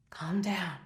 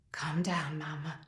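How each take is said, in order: First: Quiet voiced repeat, no whisper; soft spoken hush. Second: Soft whisper, dismissive; hushing whisper. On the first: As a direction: murmur it, a bit firmer. Father repeats to mother. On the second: Acted. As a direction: quietly shush her, almost breathless. Father hushing crying mother.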